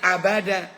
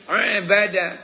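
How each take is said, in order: First: It begins with a plain vowel sound. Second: It begins with a throaty pharyngeal consonant. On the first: To linger for a long time. "kalau pakai alif" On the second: To worship. "kalau pakai ain"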